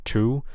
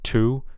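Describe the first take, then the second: First: The t is released with a puff of air. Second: The same.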